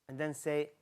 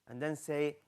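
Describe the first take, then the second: Both takes have the same delivery.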